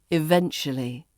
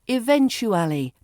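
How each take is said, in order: First: The word is shortened, with syllables squeezed together. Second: All the syllables are said in full.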